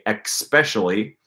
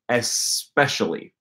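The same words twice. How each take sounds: First: It is said with an unusual regional pronunciation. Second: It is said with the common standard pronunciation. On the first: "my deviant accent and say especially" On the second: "you'll most likely want to learn the word especially"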